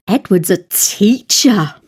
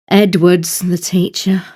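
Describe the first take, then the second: First: "teacher" stressed, with a falling finish. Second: "Edward's" emphasised, the rest left unstressed; stress on Edward. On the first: Teacher showing English emphasis by intonation, stress on "teacher". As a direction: land firmly on "teacher" at the end. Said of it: "to where the emphasis goes". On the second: Teacher showing who the teacher is, stress on "Edward's". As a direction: put the weight on "Edward's" at the start. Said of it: "The first word is the emphasised part". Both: Shown as a demonstration.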